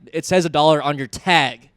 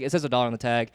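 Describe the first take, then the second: First: It is said in a harsh, confrontational tone. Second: It is said in a friendly, polite tone.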